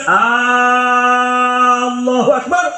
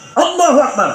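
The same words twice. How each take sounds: First: The first vowel of Allah is drawn out long. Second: The first vowel of Allah is short. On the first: A question asking whether God is truly the greatest. The speaker calls it wrong. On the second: A statement that God is the greatest. The speaker calls it right. "Allah Maha Besar"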